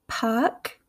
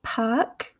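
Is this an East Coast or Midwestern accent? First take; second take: East Coast; East Coast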